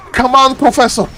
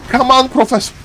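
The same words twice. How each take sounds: The two takes are said the same way.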